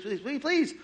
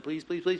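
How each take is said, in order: First: Pleading climbs high on the last please; desperate rising please; high desperate begging. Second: Said in the usual way. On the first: Acted. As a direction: beg higher and higher, like a child. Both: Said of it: "begging repeated".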